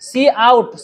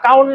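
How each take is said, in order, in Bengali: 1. এটি দুই ভাগে উচ্চারিত হয়, 'see out'। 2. এটি একটি শব্দ হিসেবে উচ্চারিত হয়, 'count'। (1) "আমরা সি আউট করতেছি" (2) "কাউন্ট না"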